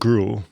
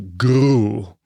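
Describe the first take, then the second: First: The R sound is plain, not rolled. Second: The R sound is rolled. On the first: The speaker calls it wrong. "not gruel" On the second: The speaker calls it right. "always rolling the R"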